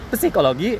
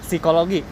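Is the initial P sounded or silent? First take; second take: sounded; silent. First: The initial P is pronounced before the S. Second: The initial P is silent, starting with S. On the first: The speaker calls it wrong. "P-nya dibaca" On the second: The speaker calls it right. "tanpa P"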